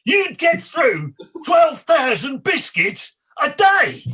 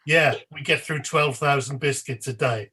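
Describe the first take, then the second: First: Slow, high, shouted echo; hammed-up head-injury presenter shout; much louder impression. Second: Said in the usual way. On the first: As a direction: bellow it back in slow disbelief, word by word. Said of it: "in a much louder and like". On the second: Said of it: "to the person who's just said it".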